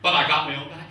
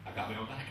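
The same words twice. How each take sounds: First: Punchline said out loud and strong; first hit of the joke, loud and proud; punchy first take. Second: Much softer muttered echo of the punchline; throwaway echo, dropped way down; quiet repeat. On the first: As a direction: land the line full voice to the room. Punchline then quiet repeat. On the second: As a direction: repeat it under the breath, almost to himself. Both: Real, not acted.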